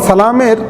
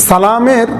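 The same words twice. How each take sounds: Both takes have the same delivery.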